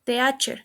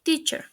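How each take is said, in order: First: "teacher" as teh-AH-cher; mispronounced. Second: "teacher" as TEE-cher; correct pronunciation. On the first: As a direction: split the ea of "teacher" into two vowels. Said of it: "mispronounced is". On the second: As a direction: say "teacher" with a long ee. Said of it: "The correct pronunciation is". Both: Shown as a demonstration.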